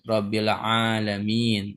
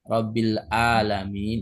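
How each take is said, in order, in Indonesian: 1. Alamin diawali dengan konsonan tenggorokan ain. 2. Alamin diawali dengan hamzah. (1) "pakai ain" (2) "dengan alif atau hamzah"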